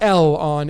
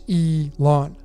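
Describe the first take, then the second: First: The name begins with an 'el' sound. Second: The name begins with an 'ee' sound. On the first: The speaker calls it wrong. "It's not L on" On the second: The speaker calls it right. "it's Elon"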